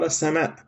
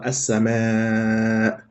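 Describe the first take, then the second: First: The vowel is said quickly and short. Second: The vowel is held and drawn out. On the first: It is ordinary everyday speech. "Quando eu falo em árabe, eu vou falar" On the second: It is recitation of the Quran. "Eu vou prolongar ela"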